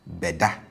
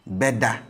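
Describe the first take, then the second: First: "beda" with be low, ingressive prefix, come and sleep. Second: "Beda" with be high, future marker, will sleep. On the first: Teacher contrasts "beda" with a low be. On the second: Teacher contrasts "Beda" with a high be. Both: Shown as a demonstration. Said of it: "Beda as against beda".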